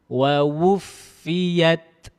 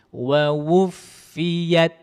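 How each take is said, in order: Both takes have the same delivery.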